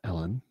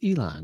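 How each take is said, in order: First: The name is said as 'Ellen'. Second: The name is said as 'Elon'. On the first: The speaker calls it wrong. "It's not Ellen" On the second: The speaker calls it right. "It's Elon"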